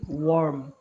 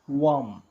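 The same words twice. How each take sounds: First: American accent, with the R pronounced. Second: British accent, with the R dropped. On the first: "Americans say worm" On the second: "the British say worm"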